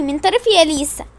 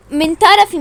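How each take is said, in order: First: Said in the usual way. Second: Called out louder. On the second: Pretend. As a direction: push the words من طرفي out loud.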